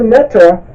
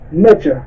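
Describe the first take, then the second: First: The middle consonant is a plain t sound. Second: The middle consonant is a j sound. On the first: This is the later, New Kingdom form of the word. "you're speaking of the new kingdom pronunciation" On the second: This is the oldest, Old Kingdom form of the word. "the old kingdom pronunciation is neger"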